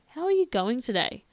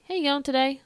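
First: It sounds warm and genuinely interested. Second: It sounds quick and casual.

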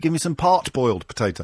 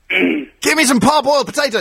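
First: The T before boiled is pronounced. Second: The T before boiled is dropped. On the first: The speaker calls it wrong. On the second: The speaker calls it right.

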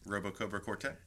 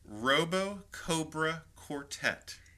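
First: It is said quickly, rushed together. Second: It is said at a normal, unhurried pace. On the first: "Can you say it fast, like four times?" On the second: "Say that again"

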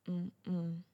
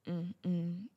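Both takes have the same delivery.

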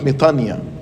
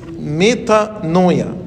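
First: The word is said without a 'noy' sound. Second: The word is said with a 'noy' sound.

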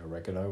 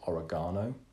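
First: It is said the American English way. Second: It is said the British English way.

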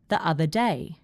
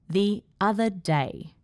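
First: The words are joined smoothly with no added sound. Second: The words are split by small pauses. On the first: The speaker calls it right. "B is generally fine as well" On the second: The speaker calls it wrong. "A was a bit awkward. The other day has two awkward pauses"

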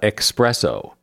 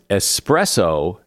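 First: The word begins with an 'eks' sound. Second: The word begins with a plain 'ess' sound. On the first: The speaker calls it wrong. "not expresso" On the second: The speaker calls it right. "has no X in it, either in writing or pronunciation"

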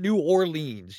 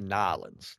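First: The name is said in full, several syllables. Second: The name is squeezed into two short syllables. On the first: "You don't even have to say" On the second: "You just say Nollins. That's how we do"

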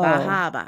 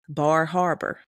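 First: The name is said without any R sounds. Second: The name is said with its R sounds. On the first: This is how Boston speakers say it. "he like Bahaba" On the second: This is how it is said outside Boston. "it's a place"

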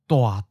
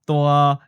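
First: The syllable is said with a falling mid pitch. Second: The syllable is said on a level mid pitch. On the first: It means sort of big. "The first syllable goes down and changes to mid-falling" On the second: It means big. "an adjective in the mid-flat seventh tone"

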